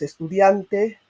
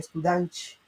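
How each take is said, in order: First: The T near the end is a plain T. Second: The T near the end sounds like CH. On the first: The speaker calls it right. "cuando dices estudiante" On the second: The speaker calls it wrong. "la T con el sonido de la C H"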